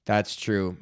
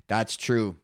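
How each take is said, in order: Both takes have the same delivery.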